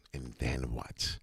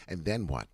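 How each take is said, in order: First: Spooky slow question; deep theatrical tease; slow low put-on voice. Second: Said in the usual way. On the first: Shown as a demonstration. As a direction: drop low and drag it out. Repeated question, second take put-on.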